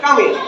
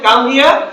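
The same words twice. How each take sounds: First: The words are said fast and run together. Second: The words are said slowly and separately. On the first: "ওরা বলে যে" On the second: "আমরা বলি যে"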